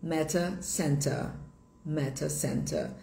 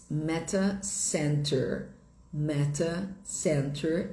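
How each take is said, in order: First: "meta center" ending in "ah", no r; British pronunciation. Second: Slow "meta center" with a sounded final r; "center" in "meta center" ends on an American r; American pronunciation. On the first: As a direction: say "meta center" as "meta SEN-tah". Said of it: "Em inglês britânico". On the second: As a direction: say "meta center" slowly, r-coloured ending. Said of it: "em inglês americano". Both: Shown as a demonstration.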